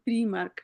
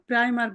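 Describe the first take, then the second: First: The brand name is said the German way. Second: The brand name is said the English way. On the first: "Germany হচ্ছে প্রিমার্ক" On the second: "ওরা হলো প্রিয় প্রাইমার্ক বলে"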